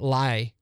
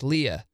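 First: The syllable sounds like 'lie'. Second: The syllable sounds like 'lee'. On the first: The speaker calls it wrong. "not Lie" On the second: The speaker calls it right. "something that's spelled L-E-I should be pronounced Leah"

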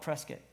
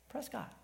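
First: The name has the local pronunciation. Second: The name has the outsider pronunciation. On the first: The speaker grew up in the town. The speaker calls it right. "if you grew up there, you call it Prescott" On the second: The speaker is not from the town. The speaker calls it wrong. "people who are not from there and didn't grow up there, they pronounce it Prescott"

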